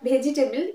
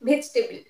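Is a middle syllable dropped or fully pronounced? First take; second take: fully pronounced; dropped. First: Every middle syllable is fully pronounced. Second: A middle syllable is dropped from the word. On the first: The speaker calls it wrong. "Not vegetable" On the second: The speaker calls it right. "it's vegetable. ... You will not be pronounced"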